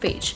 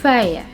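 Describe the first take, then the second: First: It is said as spelled, ending like 'page'. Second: It is said with no final consonant, like 'fair'. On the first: The speaker calls it wrong. "how am I going to pronounce it, as phage, but it's wrong" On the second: The speaker calls it right. "The correct pronunciation of this word is fair"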